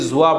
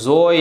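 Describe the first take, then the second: First: The letter name ends with a 'wa' sound. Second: The letter name ends with an 'oy' sound. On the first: The speaker calls it right. "ज़ोय नहीं पढ़ना है बल्कि ज़्वा पढ़ना है" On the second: The speaker calls it wrong. "बाज़ लोग उसको ज़ोय पढ़ते हैं"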